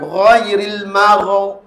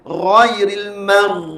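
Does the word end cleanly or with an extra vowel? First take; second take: extra vowel; clean. First: The final sound is held and gains an extra vowel. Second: The final sound is released freely and cleanly. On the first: The speaker calls it wrong. "Jangan ghairil marok" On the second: The speaker calls it right.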